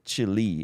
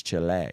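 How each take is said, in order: First: Chile said as "CHILL-ee"; wrong pronunciation. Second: Chile said as "chih-LAY"; corrected pronunciation. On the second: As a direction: stress the end of Chile, ending in "ay". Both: Shown as a demonstration. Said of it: "It's not Chil-, Chile, it's Chile".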